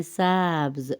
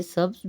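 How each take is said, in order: First: سبز with the a pulled long, "saabz"; stretched vowel. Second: Said in the usual way. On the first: Shown as a demonstration. Teacher shows the Persian green, stretched vowel. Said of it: "زبر کو ذرا کھینچ کے". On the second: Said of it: "جو ہم اردو میں استعمال کرتے ہیں".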